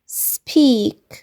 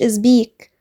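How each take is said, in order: First: The word begins directly with an s sound. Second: A vowel and buzzing z begin the word. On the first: The speaker calls it right. "لأ speak" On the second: The speaker calls it wrong. "مقلتش إزبيك"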